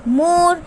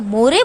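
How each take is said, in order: First: The word ends with no extra vowel. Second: The word ends with an extra 'ay' vowel. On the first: The speaker calls it right. "तो E is silent in this word" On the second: The speaker calls it wrong. "तो हमने यहाँ पे क्या मोरे बोला? No"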